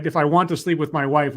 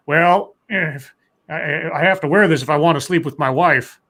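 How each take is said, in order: First: Said in the usual way. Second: Lightly imitated politician, halting start; Biden. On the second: Host retelling Biden's hat remark, lightly imitated halting candidate. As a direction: drag out the "well", stumble, then push on. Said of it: "And Biden said".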